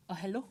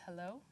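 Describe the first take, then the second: First: Imitating a Nigerian man on the phone; mock Nigerian-accented phone greeting. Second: Said in the usual way. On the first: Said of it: "this is me in my best Nigerian accent". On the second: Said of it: "And I said".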